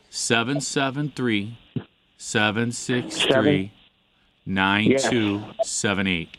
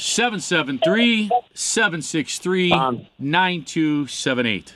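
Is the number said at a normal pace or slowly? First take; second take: slowly; normal. First: The number is said more slowly. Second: The number is said at a normal pace.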